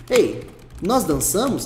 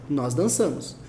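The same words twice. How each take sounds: First: NÓS DANÇAMOS asked slowly, after a calling EI; pergunta. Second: NÓS DANÇAMOS lower, falling at the end; afirmação. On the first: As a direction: hail the listener, then ask NÓS DANÇAMOS. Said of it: "Aqui eu tô perguntando pra você". (NÓS DANÇAMOS perguntando devagar) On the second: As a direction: state NÓS DANÇAMOS with a final drop. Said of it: "tá afirmando". (NÓS DANÇAMOS afirmando, em tom descendente) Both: Shown as a demonstration.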